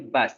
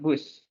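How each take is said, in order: First: The word is said with English pronunciation. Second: The word is said with Indonesian pronunciation. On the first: The speaker calls it right. "Bacanya itu bus. Kalau bus itu bahasa Indonesia" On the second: The speaker calls it wrong. "not bus"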